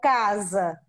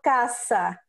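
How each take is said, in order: First: The middle consonant is a voiced z sound. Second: The middle consonant is a voiceless s sound. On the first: The speaker calls it right. "que também tem o som de Z, como casa" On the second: The speaker calls it wrong. "eles ainda falam caça"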